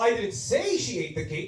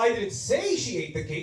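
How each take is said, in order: First: The stress falls on the word say. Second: The stress falls on the word say.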